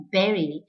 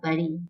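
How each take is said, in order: First: Bury said like berry; correct pronunciation. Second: Bury as BUH-ree; wrong pronunciation. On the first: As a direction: say berry with an 'eh' vowel, BEH-ree. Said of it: "the correct pronunciation of the word". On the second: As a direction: say bury with an 'uh' vowel. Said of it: "and not bury". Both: Shown as a demonstration.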